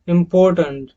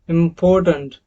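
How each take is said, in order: The two takes are said the same way.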